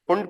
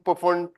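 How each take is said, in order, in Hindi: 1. शुरू का p silent रहता है। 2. शुरू का p बोला जाता है। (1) "फुंड पढ़ो ना उसको" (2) "लोग क्यों पढ़ते हो, पुफुंड पुफुंड पुफुंड"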